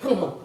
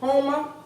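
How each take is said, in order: First: It uses the local pronunciation, Hummer. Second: It uses the outsiders' pronunciation, Homer.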